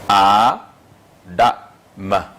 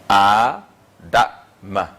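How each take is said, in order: The two takes are said the same way.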